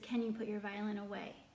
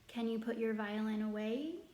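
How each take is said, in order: First: The pitch stays flat at the end. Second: The pitch rises at the end. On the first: It is a statement. "the monotone one, which is a statement where the pitch did not rise at the end" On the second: It is a question. "the first being a question because the pitch rises at the end of the sentence"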